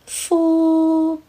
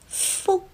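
First: The syllable ends open with a trailing vowel. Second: The syllable ends abruptly with the airflow cut off. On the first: The speaker calls it wrong. "fo 是一个开放式的结尾，结束音在哦上面" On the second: The speaker calls it right. "正确的发音应该是fo，结束音在o"

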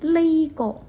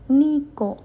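First: The first word begins with an L sound. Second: The first word begins with an N sound. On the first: The speaker calls it wrong. "有时候会说呢个" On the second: The speaker calls it right. "我更愿意用呢个"

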